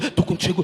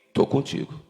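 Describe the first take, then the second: First: It is said at a quicker, hurried pace. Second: It is said at a steady, slower pace. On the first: The heart is beating faster. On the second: The heart is beating at its normal rate.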